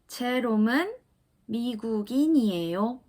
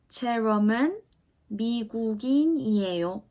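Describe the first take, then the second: First: The voice falls slightly at the end. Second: The same.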